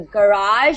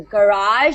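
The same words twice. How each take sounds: First: It is said with an American accent. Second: It is said with an American accent.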